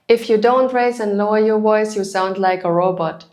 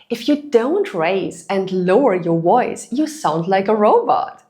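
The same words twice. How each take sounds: First: The voice stays flat in pitch throughout. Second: The voice rises and falls in pitch throughout. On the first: The speaker calls it wrong. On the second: The speaker calls it right.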